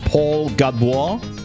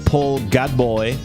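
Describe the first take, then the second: First: The surname ends in a wah sound. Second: The surname ends in an oy sound. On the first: "If I go like French" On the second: "If I go like Illinois"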